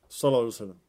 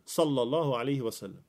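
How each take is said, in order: First: The words are slurred together indistinctly. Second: Each word is pronounced clearly and distinctly. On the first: The speaker calls it wrong. "man liksom nästan sluddrar när man säger det" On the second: The speaker calls it right. "Uttala orden"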